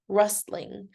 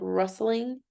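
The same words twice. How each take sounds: First: The word is said with two syllables. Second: The word is said with three syllables. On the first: "it can also be pronounced rustling" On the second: "I tend to think of rustling as three"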